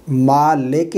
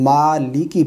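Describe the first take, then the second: First: "मालिक" said as "maa-leke"; common mistake. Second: "मालिकी" with clear i vowels; careful "मालिकी", i under the l; correct reading. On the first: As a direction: lax e vowels in "मालिक". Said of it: "मालिक नहीं". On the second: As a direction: say "मालिकी" as "maa-li-ki". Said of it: "मालिकी पढ़ेंगे". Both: Shown as a demonstration.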